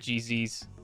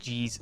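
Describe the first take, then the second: First: It is spelled out as two letters. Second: It is said as one short word.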